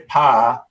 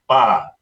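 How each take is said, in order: First: The syllable begins with a p sound. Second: The syllable begins with a b sound. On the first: The speaker calls it wrong. "we don't say pa" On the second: The speaker calls it right. "we say ba"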